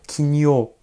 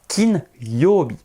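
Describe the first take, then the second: First: The n runs into the following syllable as nyo. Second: The n is kept separate from the following syllable. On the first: The speaker calls it wrong. "C'est pas kinyo" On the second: The speaker calls it right. "Le N n'est pas collé"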